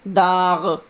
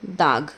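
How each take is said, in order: First: दाग ending in a throaty gh, like दाग़; दाग को ग़ के साथ बोलें; with nukta. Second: Said in the usual way. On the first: Shown as a demonstration. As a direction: give दाग its Urdu nukta sound. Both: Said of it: "बोलने का अंदाज़ समझ रहे होंगे".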